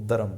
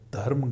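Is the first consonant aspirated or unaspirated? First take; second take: unaspirated; aspirated. First: The first consonant is said without aspiration. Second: The first consonant is said with aspiration. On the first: The speaker calls it wrong. "Kashmiri क्या बोलेंगे? ... बोलेंगे" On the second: The speaker calls it right. "धर्म को"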